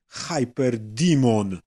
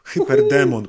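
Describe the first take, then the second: First: The name is said with English pronunciation. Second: The name is said with Polish pronunciation.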